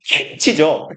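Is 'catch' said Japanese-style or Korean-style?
Korean-style. It is said as a short Korean-style loanword. "이게 캐치죠"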